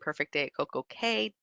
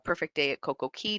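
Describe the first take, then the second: First: The last word sounds like 'kay', rhyming with day. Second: The last word sounds like 'key', not rhyming. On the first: "does rhyme" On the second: "does not rhyme"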